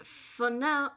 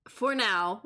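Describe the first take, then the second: First: Put-on lingering French accent, slipped in by mistake; a trace of the French accent. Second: Said in the usual way. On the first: Judge's line slipping into the chef's French accent. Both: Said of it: "I keep getting stuck into the French".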